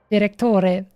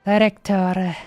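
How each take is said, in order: First: Mock Italian accent. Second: Said in the usual way. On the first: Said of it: "I really can't do this kind of, uh, accent".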